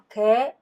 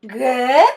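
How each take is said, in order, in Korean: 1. 음높이가 올라가지 않고 그대로 유지돼요. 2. 이 단어에서 음높이가 확실히 올라가요. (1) "아니고" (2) "제대로 올려야 돼요"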